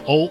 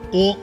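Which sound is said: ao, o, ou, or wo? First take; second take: ou; o. First: The vowel glides from o to u. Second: A single steady vowel o with no glide. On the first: The speaker calls it wrong. "一个是由哦过渡到了呜" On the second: The speaker calls it right. "哦是单元音韵母，发音的时候舌头的位置和嘴唇的形状是不能发生变化的"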